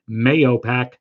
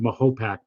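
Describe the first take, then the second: First: The middle syllable starts with a y sound. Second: The middle syllable starts with an h sound. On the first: This is how many locals commonly say it. "a lot of people pronounce it Mayopac" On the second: This is how the original inhabitants said it. "the Native Americans who lived there, I think pronounced it Mahopac"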